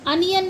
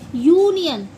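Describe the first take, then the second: First: The word begins with an 'uh' sound. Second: The word begins with a 'yoo' sound. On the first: The speaker calls it wrong. "अनियन नहीं बोलेंगे" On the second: The speaker calls it right. "इसे हम बोलेंगे यूनियन"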